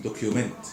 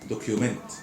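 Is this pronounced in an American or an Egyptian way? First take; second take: Egyptian; Egyptian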